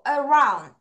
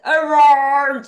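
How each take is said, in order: First: The R is pronounced with the tongue only slightly back. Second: The R is pronounced with a heavy, exaggerated curl. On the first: The speaker calls it right. "혀를 살짝만 뒤로" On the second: The speaker calls it wrong. "R 발음할 때 around 이렇게 할 필요 없죠"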